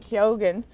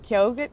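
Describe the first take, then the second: First: The G in the middle is sounded. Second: The G in the middle is silent. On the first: This is how the actor himself says it. "now he's been saying" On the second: This is the usual way to say the name. "I always would have pronounced it as"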